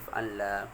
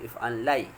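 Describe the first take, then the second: First: The word ends with a plain long 'a'. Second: The word ends with an 'ai' sound. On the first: This is the changed form with alif. "Ubah jadi if'an la" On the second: This is the original underlying form with ya. "Kalau ya kita sebut if'an lai"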